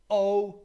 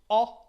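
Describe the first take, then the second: First: The vowel is held twice as long. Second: The vowel is held briefly. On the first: "o long" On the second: "o short"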